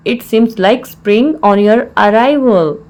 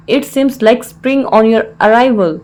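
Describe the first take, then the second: First: Slow, word-by-word teaching delivery; slow repeat. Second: Said in the usual way. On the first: Shown as a demonstration. Teacher repeats the English phrase for learners, slowly.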